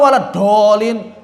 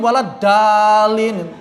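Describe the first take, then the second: First: The second word starts with a heavy emphatic d. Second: The second word starts with a plain light d. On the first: It means those who went astray. The speaker calls it right. "Dolin sesat" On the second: It means those given guidance. The speaker calls it wrong. "kalau dal itu jadinya kan dalin"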